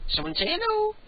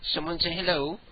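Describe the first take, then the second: First: Squeaky high voice coaxing a cat. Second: Said in the usual way. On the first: Real, not acted. Host coaxing his cat to speak, high and squeaky. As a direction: pitch way up to coax a pet.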